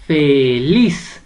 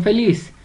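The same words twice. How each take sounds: First: "feliz" stretched as fe-LIZ, stress on "liz"; split into syllables. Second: Said in the usual way. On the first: Shown as a demonstration. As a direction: draw out both syllables of "feliz", leaning on "liz". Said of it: "la sílaba tónica es". ("feliz" en sílabas separadas y alargadas, con fuerza en "liz") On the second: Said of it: "usted la va a separar".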